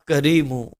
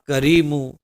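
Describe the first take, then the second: Both takes have the same delivery.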